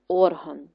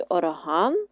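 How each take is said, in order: First: ОРган with the first syllable stressed; OR-han, weight up front. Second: ОрГАН, slow with stressed ending; or-HAN, slow, weight at the end; stress on last syllable. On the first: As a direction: lean on ОР in орган. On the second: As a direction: stretch ГАН in орган. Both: Shown as a demonstration. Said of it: "Поставити наголос у вставлених словах".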